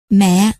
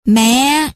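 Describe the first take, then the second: First: Understated, intimate "Mẹ" at normal pitch; affectionate. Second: Calling out. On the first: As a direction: say "Mẹ" gently, with mild affection. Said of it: "thân mật nói". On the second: Child calls to mother entering the house, a mild cry. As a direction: call "Mẹ" out on a higher note. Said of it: "Hoa Hoa liền kêu lên". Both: A narrator's reading.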